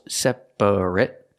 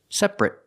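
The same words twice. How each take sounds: First: The word is said with three syllables. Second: The word is said with two syllables. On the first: The speaker calls it wrong. "it's not three syllables" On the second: The speaker calls it right. "It's two syllables"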